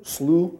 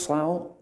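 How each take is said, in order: First: Slough with "oo" as in too, rising; slough said as sloo. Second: Slough with "ow" as in cow, rising; slough said as slau. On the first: Pastor correcting himself, Slough said like sloo. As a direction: Slough rhymed with through, checking it. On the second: Pastor asking the group how to say it, Slough like cow. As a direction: Slough rhymed with now, a questioning try. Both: Shown as a demonstration. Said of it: "Is it how it's pronounced?".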